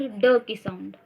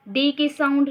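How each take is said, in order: First: "ड" as a short sound, not the name "डी"; letter sound. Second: Said in the usual way. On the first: Shown as a demonstration. Teacher contrasting letter name with its sound, "ड" said as the sound. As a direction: say "ड" as the bare consonant sound, pitched lower.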